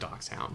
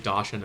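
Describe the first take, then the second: First: It is pronounced in the German way. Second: It is pronounced in an anglicized, non-German way. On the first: This is the standard way the speaker avoids. "instead of" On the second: This is the speaker's own habitual way of saying it. "I also like to say"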